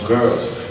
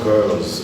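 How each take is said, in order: First: The final sound is a hissing s. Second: The final sound is a buzzing z. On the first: "Why not girls?" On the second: "Why is it called girls?"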